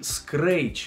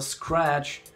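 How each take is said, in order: First: The vowel has an added ee-like glide. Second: The vowel is plain, with no glide. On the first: The speaker calls it wrong. "как некоторые по ошибке говорят" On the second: The speaker calls it right. "Нету никакого и там тоже. Это scratch"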